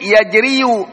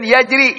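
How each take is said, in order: First: Yajriyu with the ya sounded and a closing u; final dhamma pronounced. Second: Said in the usual way. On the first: Shown as a demonstration. Teacher shows students the heavy reading, Yajriyu ending in a voiced "-yu". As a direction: add an audible "-yu" to the end of Yajriyu. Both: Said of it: "Tapi itu berat".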